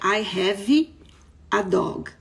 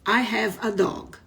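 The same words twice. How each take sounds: First: Have ends with an added stressed vowel. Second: Have ends in a plain consonant sound. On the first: The speaker calls it wrong. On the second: The speaker calls it right.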